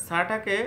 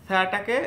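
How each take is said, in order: Both takes have the same delivery.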